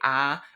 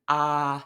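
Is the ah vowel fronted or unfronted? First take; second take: fronted; unfronted. First: The vowel is fronted, as in a regional accent. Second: The vowel is not fronted, a plain open vowel. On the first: "I come from Wisconsin, so it's kind of fronted, and I might say ah" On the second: "but it's really an ah sound"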